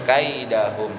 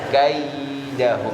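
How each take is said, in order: First: The long vowel is cut short. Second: The long vowel is held a bit longer. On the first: The speaker calls it wrong. "belum sampai madlin itu kalau di kaidahum" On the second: The speaker calls it right. "harusnya kaidahum, agak panjangin dikit"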